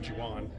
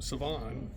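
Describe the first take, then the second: First: The name begins with a J sound. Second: The name begins with an S sound.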